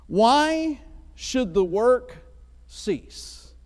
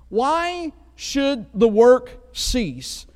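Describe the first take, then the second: First: Slow, drawn-out rhetorical question; dramatic slow question. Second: Slow, drawn-out and louder; dramatic slow question. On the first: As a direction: let each word hang. Title of message, dramatic read. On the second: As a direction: stretch it out for emphasis. Title repeated, dramatic. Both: Acted.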